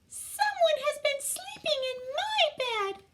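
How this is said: It is said in a tiny, small voice.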